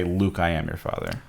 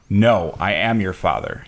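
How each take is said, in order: First: Soft, slow misquoted Vader line; quiet misquote. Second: Slow, lightly voiced Vader line; a hint of Darth Vader, drawn out; slow Darth Vader quote. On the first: Retold or imitated. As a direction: hush the wrong version, slowly. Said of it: "He doesn't say". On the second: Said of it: "He says".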